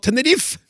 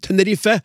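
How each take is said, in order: First: The final vowel is left silent. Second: The final vowel is clearly pronounced. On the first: This is the usual Norwegian pronunciation. "Hvorfor i all videste verden sier vi da Tenerife?" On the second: This is the local Spanish pronunciation. "På spansk uttaler man tydelig en på slutten"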